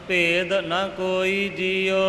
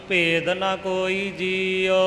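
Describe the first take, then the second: Both takes have the same delivery.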